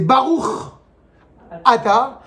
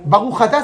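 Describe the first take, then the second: First: The two words are said separately, without linking. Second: The two words are run together with a liaison. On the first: The speaker calls it right. "ça va me forcer à me poser la question" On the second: The speaker calls it wrong. "ça n'existe pas"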